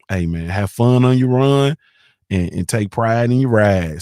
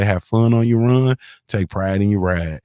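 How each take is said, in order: First: Drawn out, savoring each rhyme; slow proud slogan. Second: Said in the usual way. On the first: Retold or imitated. Reciting his uncle's riding motto, slowly. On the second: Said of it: "That's what he say".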